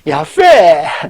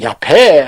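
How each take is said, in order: First: The middle consonant is a soft f sound. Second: The middle consonant is a hard p sound. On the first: The speaker calls it right. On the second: The speaker calls it wrong.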